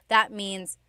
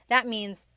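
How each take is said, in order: No difference in how they are said.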